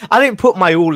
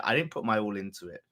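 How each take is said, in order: First: Loud. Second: Quiet. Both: Real, not acted. Repeats the line louder, then quieter.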